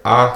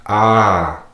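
First: Said in the usual way. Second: Long, drawn-out "Ah"; dragged vowel. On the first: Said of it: "it's the regular ah sound". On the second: Shown as a demonstration. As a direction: drag "Ah" out. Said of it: "but just drag".

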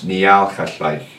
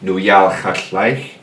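First: "Nial Chatlaich" slowly, opening on NEE instead of NOO; changed NI form. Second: "Nuyal Chatlaich" drawn out, opening on NU with an OO vowel; original NU form. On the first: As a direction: say "Nial Chatlaich" with the U traded for an EE sound. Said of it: "trade it for a ni". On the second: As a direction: slowly say "Nuyal Chatlaich" with the original "noo" start. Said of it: "will drop the u and trade it". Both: Shown as a demonstration.

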